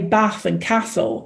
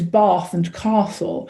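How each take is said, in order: First: It has short northern English a vowels. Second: It has long posh southern a vowels.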